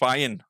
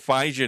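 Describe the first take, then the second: First: The J in the middle is silent. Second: The J in the middle is pronounced. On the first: The speaker calls it right. "It's just Fyan" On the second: The speaker calls it wrong. "it's not Fijan"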